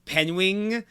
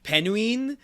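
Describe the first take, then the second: First: "penguin" said as PEN-wing; "penguin" mangled into "penwing", tune rising; imitated mispronunciation. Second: "penguin" said as PEN-ween; "penguin" drawn out into "penween"; imitated mispronunciation. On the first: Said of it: "he kept saying, like". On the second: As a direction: slowly say "penguin" as "pen-ween", tune rising. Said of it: "he, like, said, like, penguin".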